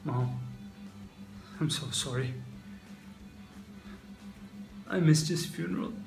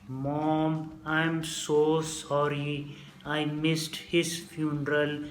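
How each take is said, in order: First: It is spoken naturally with normal human expression. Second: It is slow and flat, like a robot. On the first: The speaker calls it right. "I'm not going to be delivering the lines in that way" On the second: The speaker calls it wrong. "really slow in like a robot voice"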